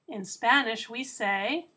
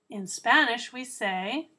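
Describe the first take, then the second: No difference in how they are said.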